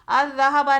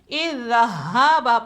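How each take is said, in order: First: The word begins with an a vowel. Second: The word begins with an i vowel. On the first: The speaker calls it wrong. "अज़्ज़हाबा नहीं" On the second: The speaker calls it right. "बल्कि इज़्ज़हाबा पढ़ेंगे"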